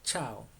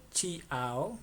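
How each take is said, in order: First: Chao as one syllable, CHOW; correct pronunciation. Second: Chiao split as chee-AH-o; wrong pronunciation. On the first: Teacher corrects learners on the Italian greeting, correct pronunciation. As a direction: say chao with a silent i. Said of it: "sino se dice". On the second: Teacher shows learners what not to say, mispronounced. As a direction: sound the i in chiao as its own syllable. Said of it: "no es". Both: Shown as a demonstration.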